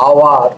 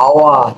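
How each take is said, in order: The two takes are said the same way.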